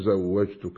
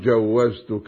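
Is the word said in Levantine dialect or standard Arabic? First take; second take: standard; Levantine. First: The consonants are in standard Arabic order. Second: The first consonants are swapped, Levantine style. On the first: The speaker calls it right. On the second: The speaker calls it wrong.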